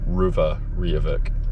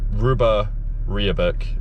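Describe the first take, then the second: First: The middle consonants are said as V sounds. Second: The middle consonants are said as B sounds. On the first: It follows the likely Gaelic pronunciation. "I think the pronunciation might be Ruva Riavuk" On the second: It follows the written spelling. "it's a B, Ruba Riabuk is how it's spelt"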